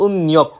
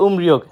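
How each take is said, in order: First: উমনিয়ক with the r turned into n; উমনিয়ক said the right Korean way; correct pronunciation. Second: উমরিয়ক said with a plain r sound; উমরিয়ক said the wrong way, with r; wrong pronunciation. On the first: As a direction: say উমনিয়ক, nasal n where r is written. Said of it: "সঠিক উচ্চারণ". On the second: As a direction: demo the mistaken উমরিয়ক, r in the middle. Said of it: "উমরিয়ক উচ্চারণটা সম্পূর্ণরূপে ভুল". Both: Shown as a demonstration.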